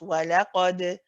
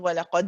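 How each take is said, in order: First: The final d ends with a gentle, natural bounce. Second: The final d ends in a sudden, jerky stop. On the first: The speaker calls it right. "a very gentle, just a natural bounce" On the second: The speaker calls it wrong. "that sudden stop, jerk at the end"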